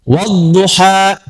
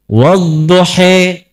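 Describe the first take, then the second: First: The final vowel is pronounced as an open a. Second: The final vowel is pronounced as a fronted e. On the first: This is the usual local reading. "Wadduha kita" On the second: This is the reading with imalah. "diturunkan Al-Quran bisa dibaca pakai E"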